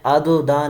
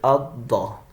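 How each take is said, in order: First: The doubled consonant is released with an echoing bounce. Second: The doubled consonant is held smoothly without a bounce. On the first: The speaker calls it wrong. "मैंने अद दा नहीं पढ़ा" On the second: The speaker calls it right. "यानी कलकला नहीं किया"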